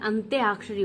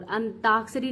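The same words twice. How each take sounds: First: अंत्याक्षरी with a clear tya glide, antyaakshari; correct version. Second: अंताक्षरी said without the y glide, ant-aakshari; अंताक्षरी as the teacher's incorrect form, plain ta; wrong version. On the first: Teacher giving students the correct form, stressing tya. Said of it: "होता है". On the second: Teacher reading the wrong spelling to her students, plain. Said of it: "नहीं होता है". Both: Shown as a demonstration.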